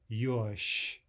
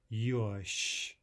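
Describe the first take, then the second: The two takes are said the same way.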